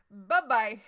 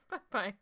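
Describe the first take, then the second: First: Bye-bye said loud and falling, dismissive. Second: Said in the usual way. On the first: Retold or imitated. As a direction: shut him down with a loud "Bye-bye". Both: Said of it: "be like".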